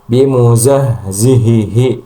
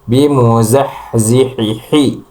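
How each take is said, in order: First: Every h sound comes from the throat base. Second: Every h sound comes from the mid-throat. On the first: "menyamakan semua semua huruf H semua ... itu juga salah" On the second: "menyamakan H yang terakhir ini sama H"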